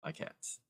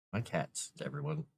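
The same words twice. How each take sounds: First: Whispered, unvoiced "My cats.". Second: Said in the usual way. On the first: Real, not acted. Owner to viewers about the cats, soft whisper. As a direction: breathe "My cats." with no voice.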